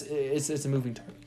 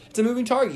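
First: Said in the usual way. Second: Emphatic. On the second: Shown as a demonstration. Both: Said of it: "repeats the phrase for emphasis".

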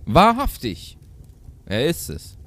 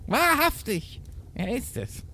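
First: Raised, loud exclamation dropping to normal voice; goat mother calling. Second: Very high put-on goat mother; goat mother's voice. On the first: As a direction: call out with only a hint of character. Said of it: "rief die Geißenmutter". (leicht gespielter Ausruf der Geißenmutter) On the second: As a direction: exclaim in a squeaky mother-goat character voice. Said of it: "die hätte dann anders reden". (hoch verstellte Geißenmutter-Stimme) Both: A narrator's reading.

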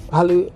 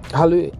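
No difference in how they are said.

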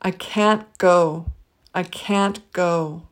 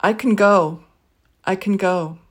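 First: Slow I can't go, can't stressed; slow, clear I can't go; full can't in a phrase. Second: I can go with can reduced; I can go, quick unstressed can; weak can in a phrase. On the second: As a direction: say can lightly, stress on go. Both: Shown as a demonstration. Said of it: "let's try a phrase with each".

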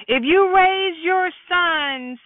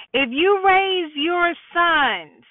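Both takes have the same delivery.

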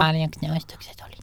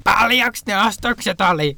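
First: Softer, higher hushed question; mock whispering. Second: High, drawn-out shouted question; mock shouting. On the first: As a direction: ask it softly, as if whispering were your only voice. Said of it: "mut sit toisaalta kuiskauksen". (leikillään hiljaa kuiskaillen) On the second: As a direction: call it out like a customer who can only shout. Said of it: "vaan siis huutoa legit". (leikillään huutaen kysytty)

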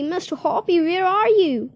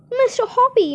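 First: Excited call. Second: High, loud excited call up to the balcony; calling up from below, shrill with excitement; excited shout. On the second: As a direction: shout his name, thrilled. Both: Acted. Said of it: "she was shouting".

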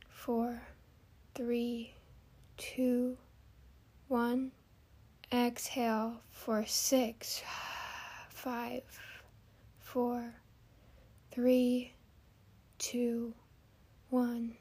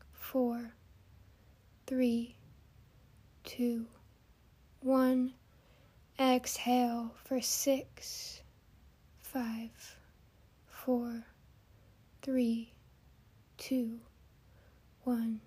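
The two takes are said the same way.

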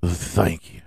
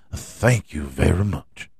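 First: Breathy whispered thank you. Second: Said in the usual way. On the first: Acted. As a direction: whisper it close to the mic.

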